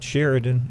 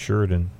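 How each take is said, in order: First: It is pronounced the way outsiders say it. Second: It is pronounced the way locals say it. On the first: The speaker is not from around there. The speaker calls it wrong. "it's not Sheridan" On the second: The speaker is from around there. The speaker calls it right. "it's Sheridan"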